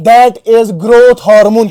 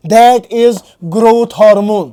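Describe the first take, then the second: First: Each word drawn out slowly for notes; teacher to class, spelling out the term very slowly; slow dictation. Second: Repeated at normal pace, falling firmly on hormone. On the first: Teacher dictating to students, words drawn out for notes. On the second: Teacher repeating the answer for students, firm falling close. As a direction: say it back to the class, firm and settled. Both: Shown as a demonstration. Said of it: "क्या बेटा?".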